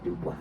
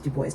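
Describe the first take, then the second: First: The name is said with a French pronunciation. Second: The name is said with a non-French pronunciation. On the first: This is how the French say the name. "the French pronounce it Dubois" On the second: This is how the man himself said his name. "saying his name was Du Bois"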